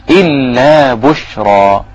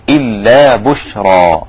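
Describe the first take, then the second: First: بشرى with a light ب and a full, heavy ر, said slowly; slow recitation. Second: إلا with a clear glottal stop on the hamza, then بشرى drawn out. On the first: Teacher recites إلا بشرى slowly, showing a heavy ر. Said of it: "بشرى الباء رقيقة". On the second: Teacher models إلا with a crisp hamza for students. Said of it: "همزة قطع اهي". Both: Shown as a demonstration.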